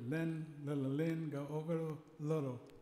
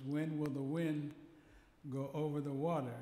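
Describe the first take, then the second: First: The W sounds are replaced by L sounds. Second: The words begin with a W sound. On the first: "He would always pronounce it with an L" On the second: "our favorite saying was"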